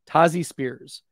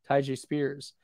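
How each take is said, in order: First: The first name sounds like Tazi, with a Z. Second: The first name sounds like Ty-J, with a J. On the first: The speaker calls it right. "Tazi Spears with a Z" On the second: The speaker calls it wrong. "looks like it's supposed to be pronounced Ty J"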